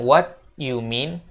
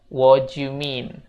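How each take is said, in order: First: Each word is pronounced fully and separately. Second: The words run together in a relaxed way. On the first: The speaker calls it wrong. "bukan what you mean" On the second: The speaker calls it right. "untuk pengucapan yang lebih natural"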